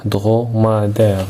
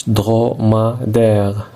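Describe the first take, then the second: First: Said in the usual way. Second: Slowly syllabified. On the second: Shown as a demonstration. Teacher counts syllables for the class, slow and spaced. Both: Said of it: "écris le nombre de syllabes".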